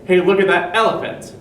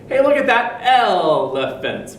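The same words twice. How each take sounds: First: Said in the usual way. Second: "Hey, look at that elephant." slow, even beats on "elephant"; robot-like "elephant"; wrong rhythm. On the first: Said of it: "We say". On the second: Shown as a demonstration. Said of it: "'cause we don't say".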